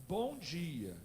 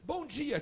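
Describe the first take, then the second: First: Said in the usual way. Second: Put-on higher, louder child's "Bom dia"; a boy's cheeky "Bom dia"; child's greeting. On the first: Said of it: "Eu digo". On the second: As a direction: chirp "Bom dia" like the boy.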